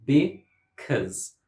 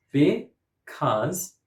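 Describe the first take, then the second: First: "because" in two beats with schwa, be, CUZ; syllable by syllable. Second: "Because" in two beats with open vowel, be, CAHZ; syllable by syllable. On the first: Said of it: "has a schwa". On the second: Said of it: "Two syllables". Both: Shown as a demonstration.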